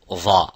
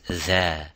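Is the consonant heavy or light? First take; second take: heavy; light. First: The consonant is heavy, said with a full mouth. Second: The consonant is light, said with an empty mouth. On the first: The speaker calls it wrong. "you don't say this letter would be dha" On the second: The speaker calls it right. "It is dha. So it has istifal and tarqiq"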